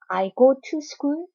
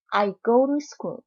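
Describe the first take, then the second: First: The t in "to" is pronounced clearly. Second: The t in "to" is softened toward an r. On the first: "나도 굳이 안 할 필요는 없습니다" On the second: "트를 르까지 약화시켜서 발음을 합니다"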